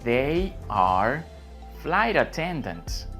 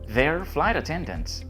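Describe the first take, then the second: First: 'They are' is said as two full words. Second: 'They are' is contracted into one syllable.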